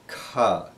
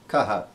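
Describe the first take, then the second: First: It is one syllable with a breathy release. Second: It is split into two separate syllables. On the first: The speaker calls it right. "make sure that we're saying ka" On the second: The speaker calls it wrong. "we'll try to say it as two syllables. We'll say kaha, and that's wrong"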